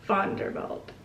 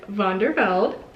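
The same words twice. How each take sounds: First: The name begins with a voiceless F sound. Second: The name begins with a voiced V sound. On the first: "the V should be more of an F" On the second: "I'm so sorry if I'm saying that wrong"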